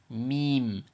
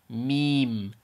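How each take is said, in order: Both takes have the same delivery.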